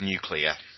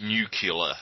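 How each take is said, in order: First: The word ends in a clear 'clear' sound. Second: The word ends in a 'cular' sound. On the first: The speaker calls it right. "unable to pronounce the word nuclear" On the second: The speaker calls it wrong. "They pronounce it nuclear, like Bush"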